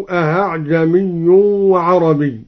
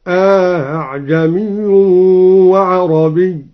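First: Said in the usual way. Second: Slow recitation, أأعجمي with long aa then softened hamza; أأعجمي drawn out, second hamza eased without a hard catch. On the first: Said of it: "بتسهيل الهمزة الثانية". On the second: Shown as a demonstration. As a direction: stretch the first a of أأعجمي, glide into the second hamza. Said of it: "بتسهيل الهمزة الثانية مع إدخال".

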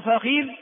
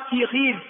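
First: فخير with fatha, then kasra on the kha; original form. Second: في خير as one word, kasra on fa and kha; vowel harmony. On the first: Teacher giving the original form, "fakhidh". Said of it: "هذه اللغة الأصلية". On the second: Teacher showing the fourth, harmonised form, "fikhidh". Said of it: "تتبع الفاء حركة العين". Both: Shown as a demonstration.

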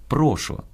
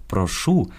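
First: «прошу» stressed on the first syllable, прОшу. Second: «прошу» stressed on the final syllable, прошУ; stress on last syllable. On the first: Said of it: "кажемо". («прошу» — наголос на «про») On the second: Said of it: "Наголос". («прошу» — наголос на «шу») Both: Shown as a demonstration.

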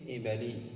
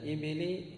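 First: إبلي with short a after the b: "ibalī"; fatha on the b. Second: إبلي with short i after the b: "ibilī"; kasra on the b. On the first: Teacher giving the correct nisba, إبلي said "ibalī". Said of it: "افتح العين". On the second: Teacher showing the form to replace, إبلي said "ibilī". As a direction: say إبلي as i-bi-lī, rising at the end. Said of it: "وبدل". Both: Shown as a demonstration.

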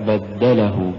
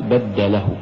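First: بدله joined, push on د; one-word بدله, stressed دَّ; correct word. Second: بدله with a push on ل, cutting off له; wrong split. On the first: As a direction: pulse the د in بدله. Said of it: "إنما الصواب". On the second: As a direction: say بدله as بدَّ له. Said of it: "إذا دفعنا باللام لفصلت الكلمة". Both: Shown as a demonstration.

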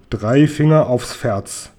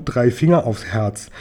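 First: "Ferz" said with an F in place of the H of "Herz"; slowly, earnestly vow it, slipping to "Ferz"; eager slip of the tongue. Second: Said in the usual way. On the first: A narrator's reading. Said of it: "Seppel beteuerte eifrig". (eifrig beteuert, "Ferz" mit F statt H) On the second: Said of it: "Ich wollte natürlich sagen".

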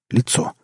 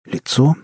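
First: Said in the usual way. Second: "Лицо" rising high at the end; questioning. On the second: A narrator's reading. Narrator searching for what is strange, "Лицо" asked with a rise. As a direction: ask "Лицо" as a question, pitch lifting. Narrator asks himself, then confirms.

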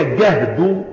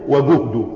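First: جهد said "gahd", open a-vowel; fatha on the jim. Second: وجهد said "wa-guhd", rounded u-vowel; damma on the jim. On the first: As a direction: say جهد with a short "a" after the first consonant. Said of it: "وبالفتح المشقة". (جهد بفتح الجيم) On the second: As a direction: say وجهد with a short "u" after the g. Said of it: "وهو بالضم الجهد". (وجهد بضم الجيم) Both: Shown as a demonstration.

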